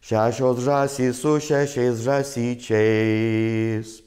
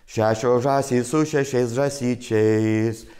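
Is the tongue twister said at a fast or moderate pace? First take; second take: moderate; fast. First: The sentence is said at a moderate pace. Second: The sentence is said at a fast pace.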